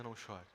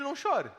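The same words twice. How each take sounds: First: Much softer, lower and gentle; Jesus gently consoling the grieving mother, softly; tender hush. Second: Quoting the words in disbelief; preacher mocking the strange words; incredulous quote. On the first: Acted. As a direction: say it as a soft, comforting promise. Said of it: "Jesus podia dizer". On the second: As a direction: repeat it as if it were absurd. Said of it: "Quem, em sã consciência, diz".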